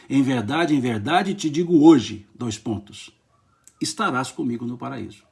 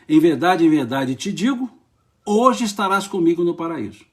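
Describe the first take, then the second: First: The pause comes after 'hoje'. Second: The pause comes before 'hoje'.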